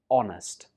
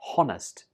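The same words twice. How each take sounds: First: The word begins with a vowel, no h sound. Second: The word begins with an audible h sound. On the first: The speaker calls it right. "it's just honest" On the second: The speaker calls it wrong. "So it's not honest"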